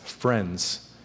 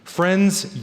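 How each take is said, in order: First: "friends" dropped much lower and much softer; soft echoed friends. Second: Said in the usual way. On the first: Retold or imitated. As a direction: let "friends" fall away softly, almost to yourself. Soft echo of punchline.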